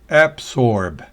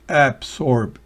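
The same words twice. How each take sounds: No difference in how they are said.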